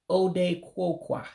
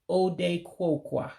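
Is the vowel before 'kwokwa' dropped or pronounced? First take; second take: dropped; dropped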